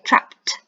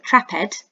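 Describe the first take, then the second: First: The ending is said as a short t sound. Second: The ending is said as an extra syllable. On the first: The speaker calls it right. "we say trapped" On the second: The speaker calls it wrong. "we don't say trapped"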